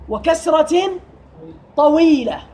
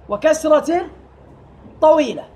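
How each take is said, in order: The two takes are said the same way.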